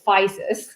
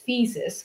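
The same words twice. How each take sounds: First: The name has an Americanized pronunciation. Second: The name has its original Greek pronunciation. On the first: This is how people commonly say it. "people mostly refer to us as Physis" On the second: This is the name's original form. "the original name it's Physis, which comes from ancient Greek"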